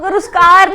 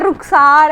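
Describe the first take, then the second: First: The name is said with a plain 's-k' cluster. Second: The name is said with a breathy 'kh' before 's'. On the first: The speaker calls it wrong. "रुस्कार नहीं है यार" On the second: The speaker calls it right. "रुखसार है"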